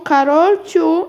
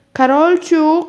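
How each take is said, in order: First: Higher, louder, slow stretched call of a name; drawn-out call. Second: Higher, louder call from another room; mother calling. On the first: Mother calls again, slower and drawn out. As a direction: stretch the name out so she hears. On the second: Mother calls Karolcia out of the bathroom, loud call. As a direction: call her daughter from the next room. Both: Acted. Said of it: "rozległ się nagle z pokoju głos mamy".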